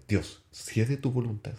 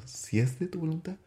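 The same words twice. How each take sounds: First: Said in the usual way. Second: Pleading prayer. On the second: Retold or imitated. Praying on the stairs for the girl, pleading higher. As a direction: repeat it higher, pleading, rising at the end. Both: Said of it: "y le pido a Dios".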